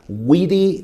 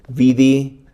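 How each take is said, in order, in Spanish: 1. La palabra empieza con un sonido W. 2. La palabra empieza con un sonido V. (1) "En latín antiguo era" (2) "no es así"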